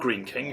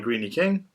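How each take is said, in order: First: The first word has one syllable. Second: The first word has two syllables.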